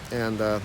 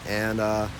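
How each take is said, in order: Both takes have the same delivery.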